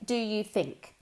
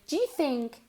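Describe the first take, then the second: First: Each word is said fully and separately. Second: 'Do you' is run together and reduced. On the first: "The first time we say it, we'll say do you think" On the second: "To make it sound more natural"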